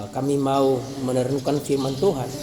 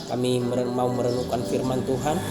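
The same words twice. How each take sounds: The two takes are said the same way.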